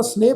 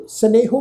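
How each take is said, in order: First: ਸਨੇਹ ending on a long e; ਸਨੇਹ with the final vowel sign silent; correct pronunciation. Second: ਸਨੇਹੋ with a sounded "ho" at the end; ਸਨੇਹੋ in three syllables, ending on o; wrong pronunciation. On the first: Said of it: "ਪਾਠ ਉਚਾਰਨ ਕਰਾਂਗੇ ਜੀ". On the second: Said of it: "ਪਾਠ ਨਹੀਂ ਉਚਾਰਨ ਕਰਨਾ". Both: Shown as a demonstration.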